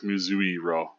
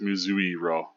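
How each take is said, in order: First: The 'i' before 'ro' is clearly pronounced. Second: The same.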